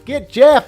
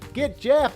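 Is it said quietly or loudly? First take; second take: loudly; quietly. First: It is said loudly, like yelling. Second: It is said quietly, not yelled.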